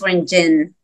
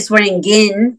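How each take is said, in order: First: The ending sounds like the word 'gin'. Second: The ending does not sound like 'gin'. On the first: The speaker calls it right. "but it's Swearingin, like a gin at the end" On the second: The speaker calls it wrong. "A lot of people say Swearingin"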